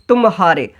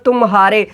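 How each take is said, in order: No difference in how they are said.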